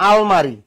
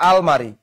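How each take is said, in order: The two takes are said the same way.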